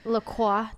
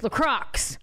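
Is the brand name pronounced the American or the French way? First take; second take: French; American. First: The name is pronounced the French way. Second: The name is pronounced the American way. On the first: "that's the French way" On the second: "make it American, man. Yeah. Merca"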